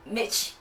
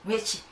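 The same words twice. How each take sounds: The two takes are said the same way.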